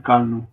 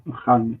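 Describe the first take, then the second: First: Akalnu with a hard k; wrong k sound. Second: Achalnu with a rasped kh, like loch; correct guttural ch. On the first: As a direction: say akalnu with a plain k, as a mistake. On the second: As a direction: say achalnu with a throaty ch. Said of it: "Not akalnu". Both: Shown as a demonstration.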